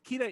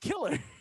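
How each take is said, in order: First: The name is said as Kira, with an r. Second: The name is said as the English word killer. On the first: This is the official form of the name. "I think Kita is the official way you say it" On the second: This is what the name actually means. "but his name is Killer"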